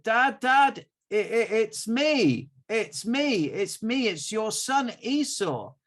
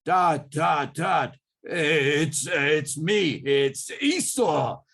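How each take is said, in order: First: High, loud nervous son calling his dad; pleading in his own voice, clearly higher; Jacob's own voice. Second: Loud put-on voice of the brother; faked Esau voice. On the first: Acted. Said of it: "it doesn't sound like Esau". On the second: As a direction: disguise the voice to pass as Esau. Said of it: "Jacob put on his default".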